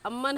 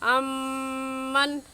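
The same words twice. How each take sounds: First: The double m is short without nasal hum. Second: The double m is held with nasal hum. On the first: The speaker calls it wrong. "नहीं कहेंगे" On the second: The speaker calls it right. "बल्कि कहेंगे अम्मन"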